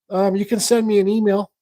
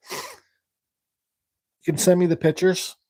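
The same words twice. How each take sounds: First: Said in the usual way. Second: Slow deliberate repeat. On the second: Real, not acted.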